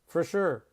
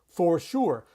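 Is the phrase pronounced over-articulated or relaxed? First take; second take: relaxed; over-articulated. First: It is said relaxed, with little mouth movement. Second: It is said with exaggerated, over-articulated mouth movement. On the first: The speaker calls it right. "We don't move our lips" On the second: The speaker calls it wrong. "No one says that"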